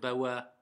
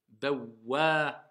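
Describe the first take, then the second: First: The w sound is short and single. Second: The w sound is doubled and held longer. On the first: The speaker calls it wrong. "je ne vais pas dire bawa" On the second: The speaker calls it right. "Je vais dire bawa. ... il y a une shedda"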